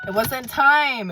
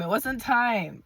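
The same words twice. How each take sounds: First: Slow, high and loud, hammed up; dramatic mock declaration. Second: Said in the usual way. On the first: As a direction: boom it out like a movie trailer.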